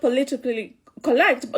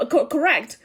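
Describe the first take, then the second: First: "politically correct" in a light Kikuyu accent, vowels flattened; a touch of Kikuyu accent on "politically correct". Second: Said in the usual way. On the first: Real, not acted. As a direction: let "correct" slip out Kikuyu-style, as "co-lect". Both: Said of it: "that's my Kikuyu accent coming out".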